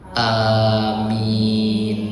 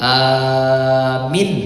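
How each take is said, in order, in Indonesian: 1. Kedua vokal panjang. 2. Vokal pertama panjang, yang kedua pendek. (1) "Alifnya panjang, ianya panjang" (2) "Kalau dibacanya alifnya yang panjang, ianya yang pendek"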